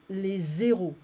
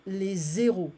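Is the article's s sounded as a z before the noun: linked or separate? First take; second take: linked; linked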